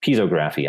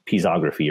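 First: Pisography said PEE-zo-graffy; alternative pronunciation. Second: Pisography said pee-ZOG-ruh-fee; tentative pronunciation. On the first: Presenter trying a viewer's term, Pisography as PEE-zo-graffy. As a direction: say Pisography as piezo plus graphy, long o. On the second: Presenter reading out a viewer's term, Pisography as pee-ZOG-ruh-fee. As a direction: say Pisography with stress on ZOG, short o. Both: Real, not acted. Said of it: "I don't know how you pronounce it".

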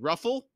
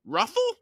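First: High, questioning "Ruffle?" with a rise; affronted echo. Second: Very high, loud "Ruffle?" with a sharp rise; outraged squawk. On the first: Crone queries Krupp's offer, high affronted "Ruffle?". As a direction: echo "Ruffle?" in a raised, disbelieving pitch. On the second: Crone is outraged by Krupp, very high loud "Ruffle?". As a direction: squawk "Ruffle?" in utter disbelief. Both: A narrator's reading.

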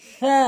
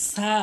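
First: Tongue tip on the front teeth edges for সা; correct সা. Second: সা with a hissing s; mispronounced সা. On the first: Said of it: "সঠিক উচ্চারণ হচ্ছে". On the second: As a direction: say সা as plain "saa". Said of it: "ভুল উচ্চারণ". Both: Shown as a demonstration.

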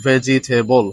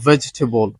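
First: Vegetable stretched to four syllables, ve-ji-TAY-bol; wrong pronunciation. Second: Vegetable as VEJ-te-bol; correct pronunciation. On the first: Teacher warns against this form, wrong pronunciation. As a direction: sound every vowel in vegetable. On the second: Teacher corrects the long form, correct pronunciation. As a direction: say vegetable in three syllables. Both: Shown as a demonstration. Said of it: "not vegetable".

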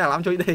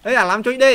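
First: Said in the usual way. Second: Louder mock shout of the villager; mock villager yell. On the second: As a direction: yell it like the angry villager, half in jest. (សម្រែកលេងសើចត្រាប់អ្នកភូមិ) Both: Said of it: "ស្រែកជេរហ្មង".

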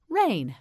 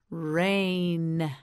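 First: Said in the usual way. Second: "rain" drawn out long and level; stretched model word. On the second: Shown as a demonstration. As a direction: stretch "rain" slowly through every sound. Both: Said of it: "Say rain".

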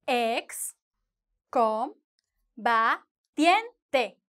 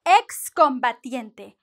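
First: "Ex, com, ba, tiente" with a long pause after each syllable; slow, spaced-out dictation of "Ex, com, ba, tiente". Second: "Excombatiente" said slowly as one word, with a clear KS in "Ex"; careful, slow model of "Excombatiente" with crisp KS. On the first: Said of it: "Five syllables". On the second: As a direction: join up "Excombatiente", sounding the X as K plus S. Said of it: "you're going to get the sound". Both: Shown as a demonstration.

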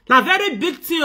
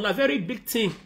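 First: Higher and louder, stressing very; loud incredulous emphasis on very; loud emphatic repeat. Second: Said in the usual way. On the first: Real, not acted. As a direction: push it out with force.

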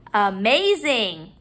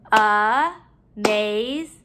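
First: Said in the usual way. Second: "Amazing" slowly, in three beats; syllable by syllable. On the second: Shown as a demonstration. Teacher counting syllables in the word, broken up. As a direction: pause between each syllable of "Amazing". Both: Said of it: "break up our syllables".

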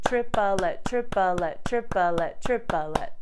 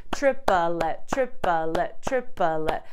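First: "triplet" said as trip-a-let, three even syllables. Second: "Triplet" spoken as trip-a-let, each syllable on a note; three-syllable triplet. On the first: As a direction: stretch "triplet" into trip-uh-let, one syllable per note. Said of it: "I chose to say it as triplet". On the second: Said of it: "we kind of put that extra syllable in there". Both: Shown as a demonstration.

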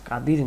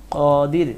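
First: কাদির with an open flat "a": "kadir"; wrong pronunciation. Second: কাদির with a rounded "o", "kodir", louder; correct pronunciation. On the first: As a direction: say কাদির as "kadir", the version to avoid. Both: Shown as a demonstration. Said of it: "কাদির না".

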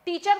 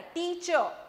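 First: Said in the usual way. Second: teacher drawn out as two parts, टी and चर; teacher syllable by syllable, tiny pause between; small syllable pause. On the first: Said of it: "आपने एक साथ नहीं बोला है". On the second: Shown as a demonstration. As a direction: split teacher into "tee-chuh" with a slight break. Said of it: "जो आपने small pause लिया है".

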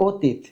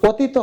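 First: "অতীত" as "o-teet", stopped on ত; no vowel after the last ত of "অতীত"; consonant ending. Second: "অতীত" as "o-ti-to"; vowel ending. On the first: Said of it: "হসন্ত দিলে উচ্চারণটা হবে". (হসন্ত দিয়ে "অতীত") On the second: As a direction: add a final o to "অতীত". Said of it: "এখনো কিন্তু উচ্চারণটা হয় নাই". (শেষে ও দিয়ে "অতীতো") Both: Shown as a demonstration.

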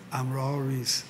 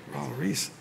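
First: Low, soft "I'm Raul Ruiz" with a falling end; answering statement. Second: Quiet "Raul Ruiz" with a rising end; questioning. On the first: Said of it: "I said, Hear my accent?". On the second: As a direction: ask "Raul Ruiz" softly, lifting the last word. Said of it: "they look at me, they go". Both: Retold or imitated.

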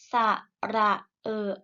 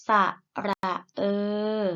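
First: เออ cut short with an abrupt stop; short vowel. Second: เอ อ held long as one vowel. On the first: Teacher models vowels for pupils to repeat, short เออ. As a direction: say ระเออ with a brief, checked final vowel. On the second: Teacher models vowels for pupils to repeat, long เอ อ. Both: Shown as a demonstration. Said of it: "ไปฝึกอ่านออกเสียงสระ".

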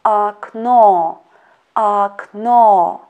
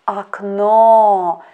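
First: Akno, akno with the last O stressed and the first O said as A; slow careful ak-NO, repeated; stress on second O. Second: Akno with stress on the last O, first O said as A; stress on second O. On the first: Teacher repeating for students, akno stressed at the end. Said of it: "One more time". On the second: Teacher to students, akno stressed on the final O. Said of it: "second letter O is under the stress". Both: Shown as a demonstration.

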